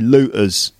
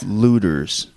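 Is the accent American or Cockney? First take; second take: Cockney; American. First: It is said in a Cockney accent. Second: It is said in an American accent.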